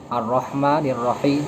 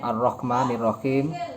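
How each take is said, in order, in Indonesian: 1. Bunyi h adalah bunyi tenggorokan yang halus dan berdesah. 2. Bunyi h adalah bunyi tenggorokan yang kasar dan menggores. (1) "itu pakai H" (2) "itu kan pakai ko, bukan pakai H"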